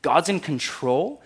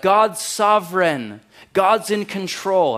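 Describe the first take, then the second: First: Incredulous question. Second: Slow, loud, high mock piety; mocking churchy slogan, slow and loud; churchy cliché. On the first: Shown as a demonstration. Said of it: "it's wrong". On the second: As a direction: drag out the pious slogan. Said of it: "they drop churchy language like".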